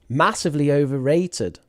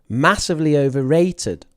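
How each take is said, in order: First: Overrated is stressed on its syllable 'ra'. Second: The same.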